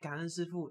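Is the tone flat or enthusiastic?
flat. It is said flatly and hesitantly.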